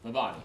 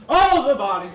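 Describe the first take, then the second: First: Said in the usual way. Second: "Oh" burst out as it dawns; sudden realization. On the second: Acted. Dann Erkenntnis, laut.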